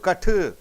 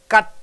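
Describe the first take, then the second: First: The final t is released with an added vowel. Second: The final t is held without release. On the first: The speaker calls it wrong. "You don't say putu, katu" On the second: The speaker calls it right. "the tip of the tongue goes and gets stuck"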